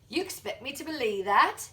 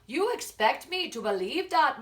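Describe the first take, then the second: First: It is spoken in an Australian accent. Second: It is spoken in a Jamaican accent. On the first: "I'm from Australia... And I would also say" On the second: "I am from Jamaica... And I will also say"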